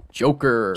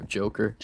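First: Smash announcer voice. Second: Said in the usual way. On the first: Retold or imitated. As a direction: announce the fighter's name like Smash. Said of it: "the announcer says in Smash". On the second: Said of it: "That's what it sounds like".

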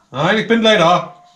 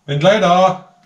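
First: Louder, slower insistent call; from another room. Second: Calling out loudly; from another room. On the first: Repeats call, more insistent. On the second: Calling to someone elsewhere. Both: Real, not acted.

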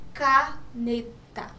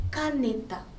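First: "caneta" slowly, split ca, ne, ta; syllable by syllable. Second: Said in the usual way. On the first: Shown as a demonstration. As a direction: separate each syllable of "caneta" with small gaps. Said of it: "começa com que sílaba". ("caneta" devagar, separando ca, ne, ta) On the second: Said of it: "quando a gente fala".

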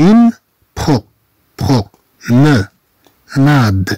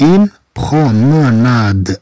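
First: Promenade broken into slow separate syllables. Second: Promenade drawn out slowly in one go; slow whole word. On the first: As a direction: chop it into syllables. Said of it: "نقطعها إلى مقاطع لفظية". (نطق مقطعي بطيء) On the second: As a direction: say it all at once, slowly. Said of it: "هذه تنطق دفعة واحدة". (نطق الكلمة كاملة ببطء) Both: Shown as a demonstration.

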